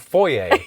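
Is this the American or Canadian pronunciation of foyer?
Canadian. It is said the Canadian way. The speaker calls it right.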